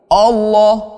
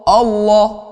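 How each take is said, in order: First: The first vowel sounds like an o. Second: The same.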